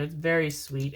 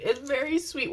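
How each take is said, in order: First: Said in the usual way. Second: Much higher repeat; high-pitched gushing. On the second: Real, not acted. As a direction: say it sweetly, way up high.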